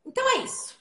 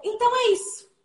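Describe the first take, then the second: First: High, soft and falling, a different colour; soft closing remark. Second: High, falling close that ends the talk; closing statement. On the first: Presenter showing a second ending, soft and falling. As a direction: let the close fall away gently. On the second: Presenter wrapping up his talk, with a high falling close. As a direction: land the final line so they know you're done. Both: Shown as a demonstration. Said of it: "Como eu acabei de fazer agora".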